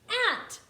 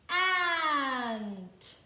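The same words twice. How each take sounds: First: The word is said quickly, sounds blended together. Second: The word is said slowly, sounds stretched apart.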